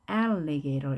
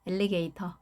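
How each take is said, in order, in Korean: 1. 강세가 있는 음절 주변에서 높낮이가 올라갔다가 내려갑니다. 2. 강세가 뚜렷하지 않고 높낮이가 평평하게 유지됩니다. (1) "강세가 있으니까요. alligator 이렇게 읽어주고요" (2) "이것도 아닌 거죠. 높낮이가 있습니다"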